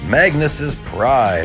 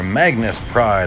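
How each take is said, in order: First: An extra 'iz' syllable follows Magnus. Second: No extra syllable follows Magnus. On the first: The speaker calls it wrong. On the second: The speaker calls it right.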